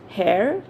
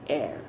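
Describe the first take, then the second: First: The word begins with an audible h sound. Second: The word begins with no h sound. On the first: The speaker calls it wrong. "is it hair? No" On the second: The speaker calls it right. "the letter H is silent here"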